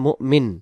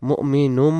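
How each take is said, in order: First: The word stops short, ending on a plain n. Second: The word runs on with an added -um ending. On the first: The reciter pauses here. "এখানে আমরা দম ছেড়ে দিলে মুমিন" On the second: The reciter carries on without pausing. "দম ছেড়ে না দিলে মুমিনুম বলবো"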